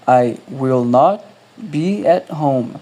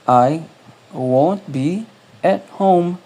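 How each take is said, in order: First: Will and not are said as separate words. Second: Will not is contracted into one syllable. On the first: "Ou você pode também falar separado" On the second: "Se você for falar assim"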